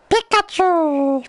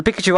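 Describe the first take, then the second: First: Very high, drawn-out creature cry; high-pitched Pikachu voice, stretched long. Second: Said in the usual way. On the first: Acted. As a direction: squeal the name slowly like the Pokemon. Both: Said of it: "The Pikachu I do".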